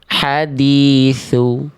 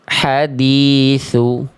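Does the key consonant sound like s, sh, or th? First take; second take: th; th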